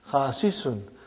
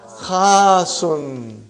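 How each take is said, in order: First: A short vowel separates the two s sounds. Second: The two s sounds merge into one long s. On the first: The speaker calls it wrong. "But we don't say Khasisun" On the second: The speaker calls it right. "What do we say?"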